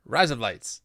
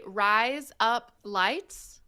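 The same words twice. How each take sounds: First: Words blended into an Australian accent. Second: "Rise up lights" very slowly, words apart. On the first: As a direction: run together like Australian "razor blades". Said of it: "in an Australian accent". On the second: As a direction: spell out "Rise up lights" for a learner. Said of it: "if you say". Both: Shown as a demonstration.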